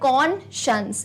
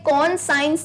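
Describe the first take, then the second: First: The second part sounds like 'shuns'. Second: The second part sounds like 'science'. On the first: The speaker calls it right. "क्या बोलते हैं" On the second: The speaker calls it wrong. "इसे कौन साइंस नहीं कहते हैं"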